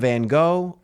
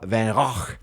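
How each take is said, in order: First: The name is said with an American pronunciation. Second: The name is said with a Dutch pronunciation. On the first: "out of sheer American stubbornness" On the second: "If I was attempting to pronounce it properly in Dutch"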